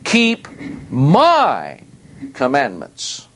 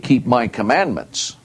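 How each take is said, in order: First: The word 'my' is strongly stressed. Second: The word 'my' is not strongly stressed. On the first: The commandments belong to the speaker and no one else. The speaker calls it right. "that's very emphatic" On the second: Keeping commandments in general is meant. The speaker calls it wrong. "that isn't what it means"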